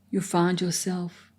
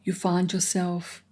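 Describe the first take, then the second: No difference in how they are said.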